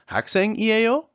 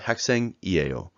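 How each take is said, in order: First: The pitch rises slightly at the end. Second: The pitch falls slightly at the end. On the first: It is a question. "you can see it slightly rises up" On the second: It is a statement. "It slightly goes down"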